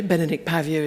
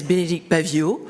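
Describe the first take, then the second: First: "Bénédicte Paviot" in an English-style pronunciation; translated name pronunciation. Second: "Bénédicte Paviot" said the French way, lifted at the end; French pronunciation. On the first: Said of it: "is the translation". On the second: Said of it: "if I say it the French way". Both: Shown as a demonstration.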